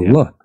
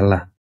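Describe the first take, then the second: First: The vowel after the L sounds like 'u'. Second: The vowel after the L sounds like a plain 'a'. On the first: This is how Arabic speakers say it. "pasti Allah, ada lafaz U-nya" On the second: This is not how Arabic speakers say it.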